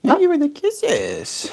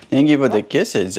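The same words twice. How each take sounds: First: High, slow cooing thanks. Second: Said in the usual way. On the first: Real, not acted. Repeat to the bird.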